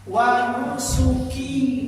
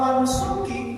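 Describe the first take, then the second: First: The final vowel of nusuki is held long. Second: The final vowel of nusuki is cut short. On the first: It refers to all of my own worship. The speaker calls it right. "Q-nya panjang" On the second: It refers to anyone's worship. The speaker calls it wrong. "tanpa panjang Q-nya"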